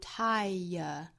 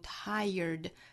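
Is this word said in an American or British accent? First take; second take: British; American. First: It is said with a British schwa ending. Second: It is said with an American pronunciation. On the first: "在英音之中读 tire 是 schwa" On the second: "在美音之中是读 tired"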